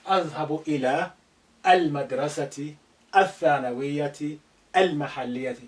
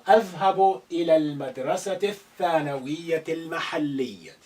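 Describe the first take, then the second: First: The vowel of the article 'al' is pronounced. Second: The vowel of the article 'al' is silent. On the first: The speaker calls it wrong. "So don't say" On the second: The speaker calls it right. "a of al here need to be silent"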